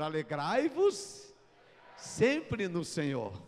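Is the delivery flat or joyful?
joyful. It is said joyfully, with lively energy. The words convey their message of joy. The speaker calls it right. "como é comunicar esse versículo?"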